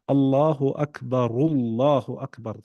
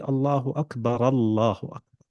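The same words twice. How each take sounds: First: The first Akbar ends with a linking u vowel. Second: The first Akbar ends with a linking a vowel. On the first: "The Ra has a Dhamma" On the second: "The Ra has a Fatha"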